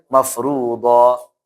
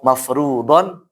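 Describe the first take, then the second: First: The word ends with a long -o vowel. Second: The word ends with an -on sound.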